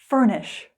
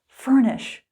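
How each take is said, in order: Both takes have the same delivery.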